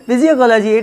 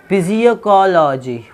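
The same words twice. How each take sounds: First: physiology laughed out higher and louder; mocking the misreading of physiology with a laugh; laughing wrong reading. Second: physiology drawn out slowly with an extra ko syllable; slow, deliberately wrong read of physiology; mock wrong reading. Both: Shown as a demonstration. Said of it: "It is physiology".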